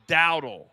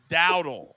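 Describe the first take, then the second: No difference in how they are said.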